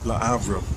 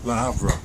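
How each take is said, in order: First: It is said with a French pronunciation. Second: It is said with a French pronunciation.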